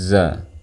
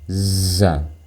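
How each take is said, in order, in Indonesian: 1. Bunyi z bersuara penuh tanpa napas. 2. Bunyi z disertai napas yang terdengar. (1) "Dan lafalkan seperti ini" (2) "jangan dilafalkan kayak gini ... Di situ ada suara nafas yang terdengar"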